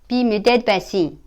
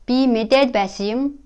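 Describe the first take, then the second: First: The u is dropped and the particle is linked. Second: The final particle keeps its full u vowel.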